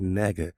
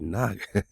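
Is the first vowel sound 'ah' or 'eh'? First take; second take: eh; ah. First: The first vowel sounds like 'eh'. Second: The first vowel sounds like 'ah'. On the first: The speaker calls it wrong. "I don't say nega" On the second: The speaker calls it right. "I say naga"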